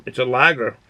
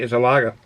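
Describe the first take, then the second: First: "lager" with the final r sounded; "lager" ending in a clear "-ger"; without Boston accent. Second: Boston "lager" with the final r dropped; lower-pitched Boston "lager", no final r; Boston accent. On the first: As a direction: pronounce the r at the end of "lager". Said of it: "Without the Boston accent". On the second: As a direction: say "lager" as "lah-guh", Boston style. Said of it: "With the Bo-, Boston accent". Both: Shown as a demonstration.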